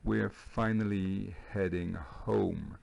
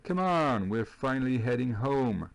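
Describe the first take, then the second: First: Slow, word-by-word teacher repeat; répétition lente. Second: Haut et fort, en s'exclamant; réplique enjouée. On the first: Shown as a demonstration. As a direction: spell the sentence out slowly for learners. Répète la phrase lentement pour élèves. (répétition lente et posée pour les élèves) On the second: Acted. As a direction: rejouer avec entrain la réplique du personnage. Rejoue la réplique de Manny. (exclamation enjouée, voix haute et forte)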